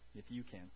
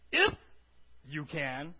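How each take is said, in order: First: It is said as a plain request. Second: It is said in an insulted, incredulous tone.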